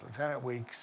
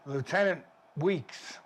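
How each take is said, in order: First: Said in the usual way. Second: Slow careful naming. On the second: Shown as a demonstration. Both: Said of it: "W E E K S".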